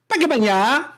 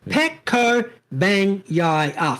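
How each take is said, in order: First: The name is said quickly with syllables run together. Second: The name is said slowly with every syllable clear. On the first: "the Australian accent and natural inclination to say a word and speed of it" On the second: "Five syllables"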